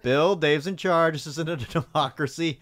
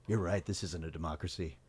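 First: Lightly voiced firm boss, raised pitch; a bit louder and higher, mock-authoritative; Mister James. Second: Low, soft, subdued agreement; imitating a man quietly backing down; mock concession. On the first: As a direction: imitate a boss laying down the law. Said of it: "Mister James right here". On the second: Bill's acted reply before rallying.

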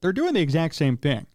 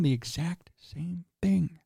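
First: Said in the usual way. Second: Hushed, slow, as if a secret; mock whisper. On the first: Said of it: "but really it isn't". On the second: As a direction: drop into a playful stage whisper toward the end. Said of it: "I'm whispering 'cause it's a secret".

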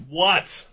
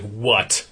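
First: High, rising "what?", mildly yelled; mock yell into the phone, pitch jumping up; imitated yell without much volume; retold yell. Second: Said in the usual way. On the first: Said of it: "I'm just yell". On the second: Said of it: "I'm just like".

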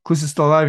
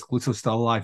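First: Louder echo of the news; mildly incredulous retort; questioning echo. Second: Said in the usual way. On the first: Acted. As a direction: repeat the news back in mock disbelief. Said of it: "And he's like". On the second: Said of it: "the guy comes across and says".

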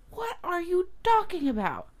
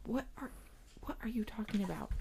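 First: Very high-pitched incredulous question; exasperated bafflement. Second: Very soft, almost whispered puzzled question; hushed bafflement. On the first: Parent pressing the upset girl for sense, incredulous. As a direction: squeal it in disbelief, falling at the end. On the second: Parent answering an angry girl, quietly baffled. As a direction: ask it under your breath, confused. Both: Retold or imitated.

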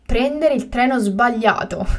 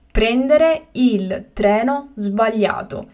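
First: Said in the usual way. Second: Slow and carefully spaced; slow, clear repetition. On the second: Shown as a demonstration. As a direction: say it again slowly for learners. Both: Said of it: "teacher repeats the word twice".

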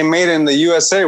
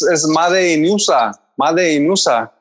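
First: Said in the usual way. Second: Slowed "Made in usa", Spanish sounds; aunts' Spanglish. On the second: Retold or imitated. Imitating the aunts' sayings, slow Spanish "Made in usa". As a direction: say "Made in usa" as "mádei in úsa". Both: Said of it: "they would say that to say".

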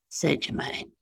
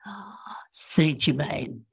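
First: Said in the usual way. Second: Soft, slow, whispery sigh of reverence; reverent sigh. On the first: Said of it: "He never said". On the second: Retold or imitated. Channelled master naming who is best, reverent sigh. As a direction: breathe it out softly like a sacred name. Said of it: "it was like almost singing".

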